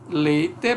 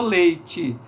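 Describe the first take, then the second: First: The final vowel is a clear e sound. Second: The final vowel is raised to an i sound.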